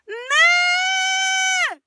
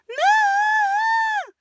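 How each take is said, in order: First: It is a pained, frustrated cry. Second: It is a high scream in head voice. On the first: The speaker calls it right. "But they're doing this. ... It comes from pain" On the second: The speaker calls it wrong. "They're not going to scream in their head voice. They're not doing"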